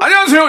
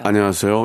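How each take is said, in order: First: It is said in a higher pitch. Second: It is said in a low pitch.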